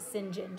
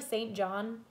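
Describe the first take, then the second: First: Said as one clipped word, like Sinjin. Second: Said as two full words, Saint John. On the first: The speaker calls it right. "in England they pronounce it St John" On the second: The speaker calls it wrong. "so it looks like Saint John"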